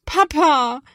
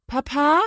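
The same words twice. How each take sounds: First: Loud, high, plaintive call; kläglich rufend. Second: Higher questioning call, rising at the end; lauter rufend. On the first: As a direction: wail for dad, close to tears. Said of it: "klingt es schon etwas kläglicher". (laut und kläglich rufen) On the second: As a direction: call for dad with more urgency. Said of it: "dann immer lauter ruft sie". (etwas lauter, fragend rufen) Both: A narrator's reading.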